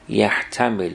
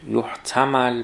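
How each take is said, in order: First: It is voweled as active: yahtamil. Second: It is voweled as passive: yuhtamal. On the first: Someone considers the permissibility of the act probable. "یحتمل معلوم باشه" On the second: The permissibility of the act is what is probable. "یحتمل مجهول"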